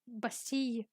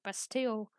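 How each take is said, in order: First: The name is said with French pronunciation. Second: The name is said with English pronunciation. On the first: "in French manner Bastille" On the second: "in English manner like Bastille"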